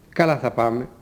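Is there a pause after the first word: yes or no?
no. The phrase runs on without any pause. The first word describes how the going will go. "Στα άλλα δεν ακολουθεί μετά το «καλά» παύση. Η φωνή είναι συνεχόμενη"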